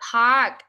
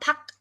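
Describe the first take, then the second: First: The vowel is a long open 'ah' sound. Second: The vowel is a short 'uh' sound. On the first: The speaker calls it right. "Park, not puck" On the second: The speaker calls it wrong. "not puck"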